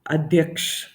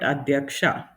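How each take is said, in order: First: The word ends on a consonant, vowel cut short. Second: The word ends with a full final a vowel. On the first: This is the Hindi form. "it's ending with the A swar and we cut short" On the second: This is the Kannada form. "in Kannada, you would call it"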